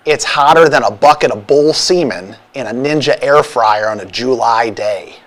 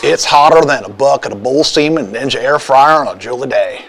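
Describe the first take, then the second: First: Hint of a Chicago North Side accent; lightly put-on Chicago accent. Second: Hint of a Southern gentleman accent; lightly put-on Southern accent. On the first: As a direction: read it as a mild Chicago local. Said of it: "How about North Side?". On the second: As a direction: read it as a mildly Southern gentleman. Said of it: "read that in your best Southern gentleman accent". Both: Shown as a demonstration.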